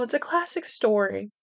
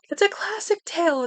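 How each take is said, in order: First: Said in the usual way. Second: Storyteller voice. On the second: Pretend. Mock-grand storybook phrasing.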